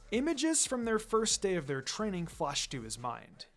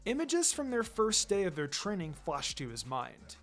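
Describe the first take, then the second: No difference in how they are said.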